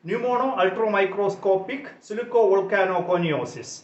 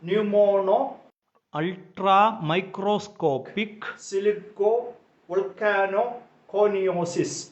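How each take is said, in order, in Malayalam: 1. ഈ വാക്ക് വേഗത്തിൽ, ഒറ്റയടിക്ക് പറയുന്നു. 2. ഈ വാക്ക് സാവകാശം, ഓരോ ഭാഗമായി പറയുന്നു. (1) "വളരെ വേഗം നമുക്ക് ഈ വാക്ക് ഉച്ചരിക്കുന്നതിന് സാധിക്കും" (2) "ഈ വാക്ക് നമുക്ക് സാവകാശം ഒന്ന് പറഞ്ഞ്"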